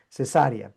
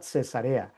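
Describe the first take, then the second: First: The stress falls on the second syllable. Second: The stress falls on the third syllable. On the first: It names the surgical birth. "es diferente" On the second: It names the city. "Cuando estamos hablando de la ciudad"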